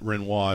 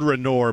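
First: The name gets a fancy, refined pronunciation. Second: The name gets a plain, everyday pronunciation. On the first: "they pronounce it Renoir if they want to be fancy" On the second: "It's spelled Renoir"

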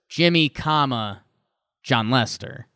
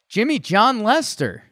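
First: There is a pause after the first word. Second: The three words run together without a pause. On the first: One person is addressed, then another is named. The speaker calls it right. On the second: It sounds like one person's full name. The speaker calls it wrong.

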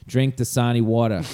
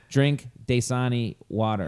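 First: It is said in a New York accent. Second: It is said in a neutral, standard accent.

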